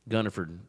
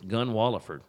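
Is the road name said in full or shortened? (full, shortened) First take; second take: shortened; full. First: The name is shortened, with the middle syllables dropped. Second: The name is said in full, with every syllable. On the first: This is how locals commonly say it. "Everybody calls it Gunnerford" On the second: This is the road's actual name. "It's Gunwalliford"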